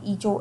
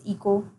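First: The middle consonant is a 'ch' sound. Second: The middle consonant is a 'k' sound. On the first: The speaker calls it wrong. "not echo" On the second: The speaker calls it right. "it's eco"

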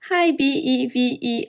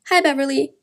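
First: The name is spelled out letter by letter. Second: The name is said as one normal word. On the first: The speaker calls it wrong. "rather than saying" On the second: The speaker calls it right. "it's much more convenient to say to your friend"

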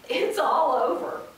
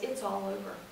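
First: It is said with emotional despair. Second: It is read flatly, without emotion.

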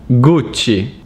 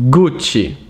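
Both takes have the same delivery.

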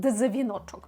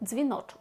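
First: The d and z are pronounced as separate sounds. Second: The d and z are merged into one sound. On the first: The speaker calls it wrong. "Ми не кажемо українською «дзвіночок»" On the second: The speaker calls it right. "ми кажемо «дз», «дзвіночок»"

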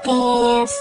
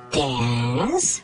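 First: It is said with the first tone. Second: It is said with the third tone. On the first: "yung first tone ay yung pa-sweet na tone, gaya nito" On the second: "Ang third tone naman ay yung parang may pagdududa na tone, gaya ng"

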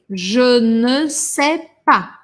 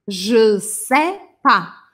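First: Every word is said in full, including ne. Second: The ne is dropped, the rest is said. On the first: It is the most correct, careful form. "O mais correto seria eu falar je ne sais pas" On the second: It is everyday, faster speech. "a gente acaba comendo o ne e deixa o pas"

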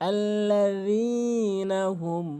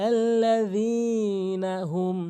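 The two takes are said the same way.

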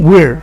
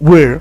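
Both takes have the same delivery.

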